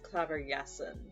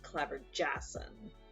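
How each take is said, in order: First: The J is said like an English y. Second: The J is said like an English j. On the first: The speaker calls it right. "the a J makes like a y sound" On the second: The speaker calls it wrong. "rather than like"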